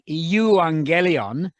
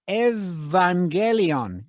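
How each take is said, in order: First: The opening is said with a u vowel, eu. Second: The opening is said with a v sound, ev. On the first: This is how the written spelling looks. The speaker calls it wrong. "which looks to you like euangelion" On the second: This is the actual pronunciation. The speaker calls it right. "That's going to be evangelion"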